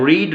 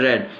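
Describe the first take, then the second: First: The vowel is long, rhyming with 'seed'. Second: The vowel is short, rhyming with 'bed'. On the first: This is the present-tense form of the verb. "the first form of R E A D will be pronounced read" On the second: This is the past-tense or past-participle form of the verb. "second form and third form of R E A D will be pronounced red"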